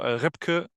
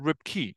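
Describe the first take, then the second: First: The name has a German pronunciation. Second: The name has an English pronunciation. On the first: This is the name as used at home. "Ripke is how I would introduce myself in my country" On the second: This is the name as used internationally. "they pronounced it Ripke"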